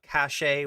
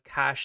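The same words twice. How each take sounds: First: The word does not sound like 'cash'. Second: The word sounds exactly like 'cash'. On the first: The speaker calls it wrong. "not cache" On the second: The speaker calls it right. "is pronounced uh cache"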